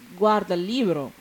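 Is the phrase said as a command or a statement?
statement. The phrase has a plain statement intonation. It states that someone is looking at the book.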